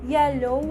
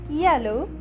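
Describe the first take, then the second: The two takes are said the same way.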